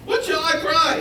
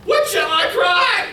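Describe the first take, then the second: First: High but quieter, falling question; softer repeat. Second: Very high, loud, slow cry rising at the end; bewildered shout. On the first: Prophet repeating the question to God, quieter and falling. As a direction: ask it again with less force, resigned. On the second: Prophet shouting back at God, loud rising question. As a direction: throw the question up to heaven. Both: Retold or imitated. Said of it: "And he said".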